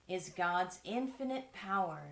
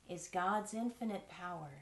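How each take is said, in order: The two takes are said the same way.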